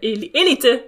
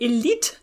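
First: The word is said with a Spanish pronunciation. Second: The word is said with a non-Spanish pronunciation.

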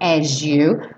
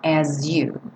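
First: The s and y merge into a zh sound. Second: The s and y stay as separate sounds. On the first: "a gente ganhou aí um som de J nesse S" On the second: "mas obviamente você pode falar as you"

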